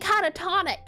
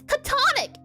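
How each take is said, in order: First: The word is said with four syllables. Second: The word is said with three syllables. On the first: The speaker calls it wrong. "I've been saying catatonic" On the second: The speaker calls it right. "It's catonic"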